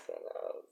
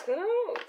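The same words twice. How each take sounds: First: Whispered who knows as an aside. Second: Said in the usual way. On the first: Real, not acted. Repeats phrase, second one whispered.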